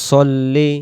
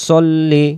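No difference in how they are said.

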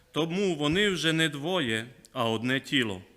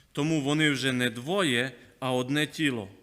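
No difference in how they are said.

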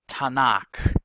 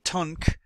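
First: The acronym has vowels added, giving two syllables. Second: The acronym is said as one short syllable. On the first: The speaker calls it right. "You put the letter A in between each consonant" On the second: The speaker calls it wrong. "they're not saying tunk"

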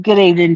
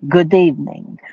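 First: It is said in a plain, ordinary voice. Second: It is said in a vampire Russian accent.

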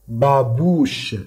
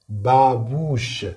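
The two takes are said the same way.

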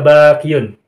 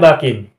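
First: The word ends in a longer 'iyun'. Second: The word ends in a short 'in'. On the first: The speaker calls it wrong. "Tidak boleh dibaca bakiyun" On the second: The speaker calls it right. "bacanya bakin"

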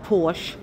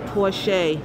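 First: The name is pronounced the American way. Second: The name is pronounced the European way. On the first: The speaker calls it wrong. "In America, we call it Porsche" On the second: The speaker calls it right. "We've been pronouncing it wrong"

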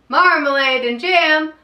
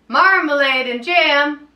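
No difference in how they are said.

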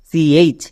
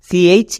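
No difference in how they are said.

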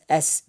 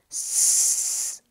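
First: It is said as the letter name, with a vowel before the hiss. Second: It is said as a bare hiss, with no vowel before it. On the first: It names the letter of the alphabet. The speaker calls it wrong. "it is not pronounced as S" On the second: It is the speech sound. The speaker calls it right. "Rather, it is pronounced as S, and this is S"

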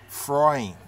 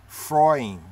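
Both takes have the same delivery.

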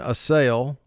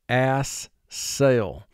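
First: The word is said smoothly as one unit. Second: The word is split into two separate syllables. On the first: This is the everyday spoken form. "we would pronounce it in conversation" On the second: This form helps with spelling the word. "but for spelling"

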